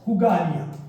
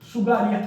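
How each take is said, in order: First: The name begins with an h sound. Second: The name begins with an s sound. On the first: The speaker calls it wrong. "मुख सुख के लिए ... तो ये गलत हो गया" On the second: The speaker calls it right. "अब उसका नाम तो है सुगालिया"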